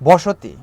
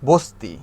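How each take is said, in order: First: The middle vowel is fully pronounced. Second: The middle vowel is skipped entirely. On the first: "বসতি না বলে" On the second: "এই অটাকে আমি skip করে বস্তি বস্তি বললাম"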